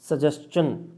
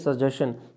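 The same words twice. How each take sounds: First: The ending is said with a 'ch' sound. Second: The ending is said with a 'sh' sound. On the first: The speaker calls it right. "हमेशा च का sound देता है" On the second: The speaker calls it wrong. "Not a सजेशन"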